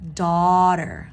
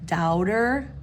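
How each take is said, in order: First: The first vowel sounds like aw. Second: The first vowel sounds like ow. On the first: The speaker calls it right. "it's actually awe" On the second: The speaker calls it wrong. "people making the mistake of saying doubter with the ow"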